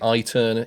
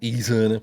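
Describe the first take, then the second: First: The first vowel sounds like 'eye'. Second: The first vowel sounds like 'ee'. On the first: "it could be an I" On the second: "it could be an E"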